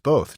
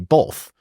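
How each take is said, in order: First: The word is said without an L sound. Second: The word is said with an L sound. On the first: The speaker calls it right. "no, it's both" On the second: The speaker calls it wrong. "I catch people putting an L and B O T H"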